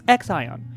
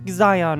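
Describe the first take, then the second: First: The name begins with an eks sound. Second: The name begins with a z sound. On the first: The speaker calls it right. "it's X Ion" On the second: The speaker calls it wrong. "It's not Zion or whatever I was trying to say"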